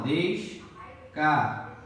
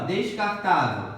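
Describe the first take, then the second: First: "descartável" very slowly, a pause between syllables. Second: Said in the usual way. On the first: Shown as a demonstration. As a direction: break "descartável" into des-car-tá-vel. ("descartável" sílaba por sílaba, bem devagar) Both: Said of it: "Separação".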